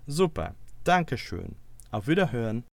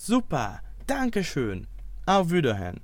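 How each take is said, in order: First: It is said with less excitement. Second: It is said with lively excitement.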